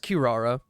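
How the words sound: The name is said with an English pronunciation. The speaker is talking in English. "I will be referring to her as Kirara, and it makes me cringe so bad. But I'm speaking English"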